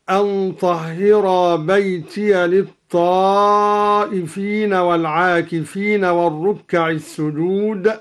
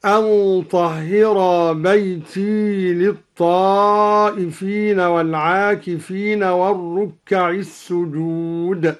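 First: Said in the usual way. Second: بيتي ending in a long "ee", no "-ya"; still ya in بيتي. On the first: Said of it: "بإسكان الياء من بيتي". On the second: Shown as a demonstration. Teacher demonstrating al-Duri's reading, بيتي with silent-voweled ya, "baytee". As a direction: leave the ya of بيتي unvoweled, "baytee". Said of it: "قرأ الدوري بإسكان الياء من بيتي".

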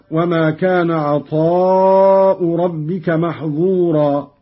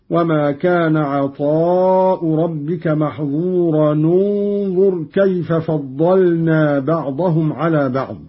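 First: Said in the usual way. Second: محظورا linked to انظر with u, "maḥẓūranu-nẓur"; damma when joining. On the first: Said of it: "عندما نصل محظورا". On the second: Shown as a demonstration. Teacher demonstrating Qalun joining the verses, damma on the tanween of محظورا. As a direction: join محظورا انظر through an nu sound, no break. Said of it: "بضم أولى الساكنين".

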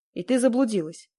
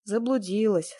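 First: Higher question, peaking on «ты»; guessing question. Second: «Заблудилась» as a falling confirmation; agreeing. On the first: Stranger guessing why the woman is there, questioning «заблудилась». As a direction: lift «ты» as you guess. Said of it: "попытался он угадать". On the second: Woman agreeing with the stranger, «Заблудилась» falling. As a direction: let «Заблудилась» fall in assent. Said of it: "согласилась я". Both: A narrator's reading.

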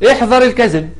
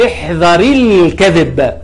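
First: احذر ending on a vowelless r, apart from الكذب; sukun on احذر. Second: احذر linked as "ihdhari-l" into الكذب, slowly; linking kasra. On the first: Teacher showing the underlying form, احذر cut off on a bare r. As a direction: keep احذر closed on r, then start الكذب afresh. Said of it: "مبني على السكون". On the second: Teacher showing two sukuns meeting, احذر linked with an i. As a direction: add a short i to احذر and run it into الكذب. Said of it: "يبقى كأنها فيها سكون". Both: Shown as a demonstration.

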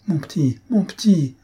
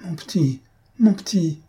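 First: Pleading. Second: Stammering plea. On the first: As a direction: beg him to let go. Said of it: "supplia Victoire". (Victoire supplie Lupin, en montant) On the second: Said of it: "Victoire balbutiait". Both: A narrator's reading.

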